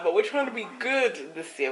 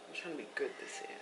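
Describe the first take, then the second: First: Loud and proud resolve; loud declaring. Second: Quick whispered aside. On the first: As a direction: announce it boldly. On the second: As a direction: whisper it fast to yourself. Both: Real, not acted. Repeats the vow twice.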